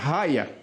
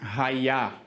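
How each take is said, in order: First: The stress is on the first syllable. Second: The stress is on the last syllable. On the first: The speaker calls it wrong. "Para não ficar raia" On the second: The speaker calls it right. "e sim raiá"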